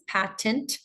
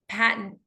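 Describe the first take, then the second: First: The word is said carefully with a clear ending. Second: The word is said naturally with a swallowed ending. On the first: "I'm saying it clearly for the sake of the class" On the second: "in my American accent, if I were to say this naturally"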